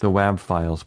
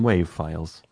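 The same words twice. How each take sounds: First: "wav" with the a of wave, /weɪv/; "wav" pronounced wave. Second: "wav" with the short a of cat, /wæv/; "wav" with a flat short a; wav said as in have. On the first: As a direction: say "wav" to rhyme with save. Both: Shown as a demonstration. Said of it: "or I would call them wav files".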